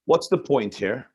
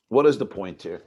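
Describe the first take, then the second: First: Said in the usual way. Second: "is" leaned on with a falling tune; What "is" the point here, weight on "is"; stress on IS. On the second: Shown as a demonstration. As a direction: press the word "is" as you repeat the question.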